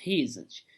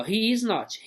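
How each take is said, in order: First: Isn't said as one lower, softer word; contracted form. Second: Said in the usual way. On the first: Shown as a demonstration. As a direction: drop the o and glide he isn't together. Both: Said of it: "Olha aqui, ó".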